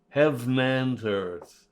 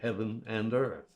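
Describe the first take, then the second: First: Heaven is one syllable, linked into 'and'. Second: Heaven has two full syllables before 'and'. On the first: The speaker calls it right. "Take the final vowel off of heaven" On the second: The speaker calls it wrong. "which violates the verse plan in a big way"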